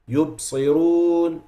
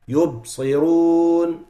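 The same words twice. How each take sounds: No difference in how they are said.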